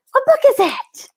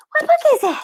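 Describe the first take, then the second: First: High breathy whisper to a pet. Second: Pet talk voice. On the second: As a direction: coo aloud, much higher. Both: Real, not acted.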